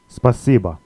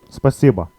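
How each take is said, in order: No difference in how they are said.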